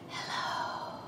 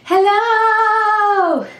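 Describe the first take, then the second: First: It is said very quietly. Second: It is said very loudly.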